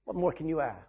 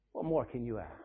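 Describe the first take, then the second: First: Said in the usual way. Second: Softer repeat. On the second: Shown as a demonstration. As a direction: drop to a hushed, much softer echo.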